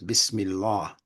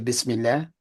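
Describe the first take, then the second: First: The final 'lah' vowel sounds heavy, like father. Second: The final 'lah' vowel sounds light and thin. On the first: The speaker calls it right. "if we're to be totally correct" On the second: The speaker calls it wrong. "out of habit, I still say Bismillah"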